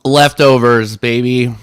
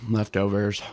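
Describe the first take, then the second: First: Excited. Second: Quiet. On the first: Proud about dinner. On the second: Repeated to himself. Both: Real, not acted.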